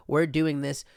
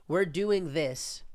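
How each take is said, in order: First: Lightly voiced press secretary, brisk; mock official reassurance. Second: Slow mock reassurance. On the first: Mocking the press secretary's reply, lightly voiced. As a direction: toss it off like a spokesperson. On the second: Mocking the press secretary's reply, very slow. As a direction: draw it out very slowly, mocking. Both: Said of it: "your tone of how you said things".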